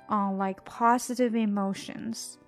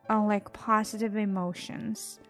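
No difference in how they are said.

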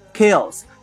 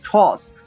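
First: It is read with English sounds. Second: It is read with Chinese pinyin sounds. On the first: The speaker calls it right. "英文读成chaos" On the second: The speaker calls it wrong. "按照拼音去读成chaos，那是错的"

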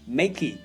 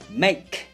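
First: The word ends with an extra vowel sound. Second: The word ends without an extra vowel. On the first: The speaker calls it wrong. "你不会听到别人把这个词念作makey" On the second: The speaker calls it right. "后面一个E 不发音make"

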